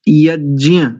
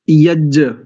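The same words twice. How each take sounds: First: The cluster is said with a nasal sound. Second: The cluster is said without a nasal sound. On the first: The speaker calls it right. "इस शब्द का ठीक उच्चारण यज्ञ ऐसा है" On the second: The speaker calls it wrong. "यज्ञ ऐसा अशुद्ध उच्चारण करते हैं"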